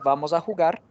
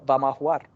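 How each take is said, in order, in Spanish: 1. El sonido de la j es fuerte y áspero. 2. El sonido de la j es suave y ligero. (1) "En vez de, de- de pronunciar" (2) "se acostumbra a suavizar los sonidos de la J y la G"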